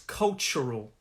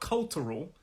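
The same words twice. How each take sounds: First: The middle consonant is a ch sound. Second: The middle consonant is a plain t sound. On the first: The speaker calls it right. "That T U has a kind of ch sound" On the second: The speaker calls it wrong. "it's not cultural"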